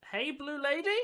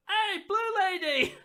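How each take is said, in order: First: Put-on high, questioning young elf; tentative repeat. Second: High, drawn-out call; yelling young elf. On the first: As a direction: repeat the call as an unsure question. Young elf repeats his call, unsure. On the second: Acted. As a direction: yell it out loud as a young elf. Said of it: "a young elf yells out".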